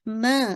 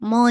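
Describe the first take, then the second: First: The vowel is light and open. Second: The vowel is heavy and rounded. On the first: The speaker calls it right. "मा बिल्कुल लाइट रखिएगा" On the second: The speaker calls it wrong. "मोटा नहीं कीजिएगा, मौ मौ नहीं"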